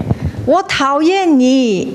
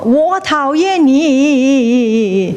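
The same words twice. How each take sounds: First: High, slow calling out; cliff-top shout. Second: High, long echo with a wavering tail. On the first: Someone shouting dislike from the same cliff, high call. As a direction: holler it slowly from a cliff. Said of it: "you shout". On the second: The cliff throws the dislike back, long echo. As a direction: stretch the last word into ripples. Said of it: "It will go". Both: Acted.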